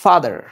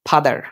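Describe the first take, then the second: First: The f uses upper teeth on lower lip. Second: The f is a puffed p sound. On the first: The speaker calls it right. "কিন্তু উচ্চারণটা কিভাবে দেখো" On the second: The speaker calls it wrong. "আমরা বলি ফাদার"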